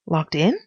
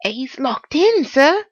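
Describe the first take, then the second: First: Said in the usual way. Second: High, slow housekeeper confiding; confidential housekeeper. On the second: A narrator's reading. Housekeeper confiding in the visitor, high and drawn out. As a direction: confide it in the servant's raised voice. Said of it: "Then, confidentially".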